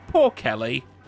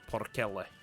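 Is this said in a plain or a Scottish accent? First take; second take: plain; Scottish. First: It is said in a plain, unaccented voice. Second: It is said in a Scottish accent. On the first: "Like poor poor Kelly" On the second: "But in a Scottish accent"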